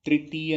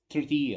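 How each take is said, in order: First: तृतीय with a clear "tree" start; plain i after tr in तृतीय; wrong "त्रि" pronunciation. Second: तृतीय with a short vibrating ऋ; तृतीय, tongue pulled back on the r; correct तृ pronunciation. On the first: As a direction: say तृतीय as "tri-tiya", louder and higher. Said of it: "तृतीय नहीं होता". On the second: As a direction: say तृतीय as "trr-tiya", barely any i. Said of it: "तृतीय होता है". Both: Shown as a demonstration.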